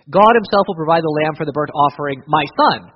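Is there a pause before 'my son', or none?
none. 'My son' runs straight on from 'offering'.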